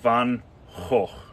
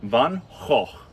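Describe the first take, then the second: First: It is said with a Dutch accent. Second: It is said with a Dutch accent.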